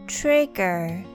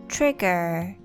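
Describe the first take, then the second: The two takes are said the same way.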